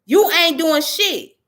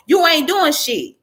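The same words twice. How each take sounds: First: Slower, each word hammered; slow emphatic repeat. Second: Raised, quick blunt dismissal; angry retort. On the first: Vlogger repeating his verdict, slow and emphatic. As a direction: spell it out word by word. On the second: Vlogger dismissing the activists, raised and blunt. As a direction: snap it at her. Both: Real, not acted.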